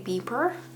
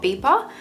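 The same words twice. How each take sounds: First: It is said in an American accent. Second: It is said in a non-American accent.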